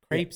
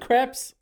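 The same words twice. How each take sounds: First: The word is given an American pronunciation. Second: The word is given a French pronunciation. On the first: "Crepes is more like the way Americans say it" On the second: "I think crepes is more French"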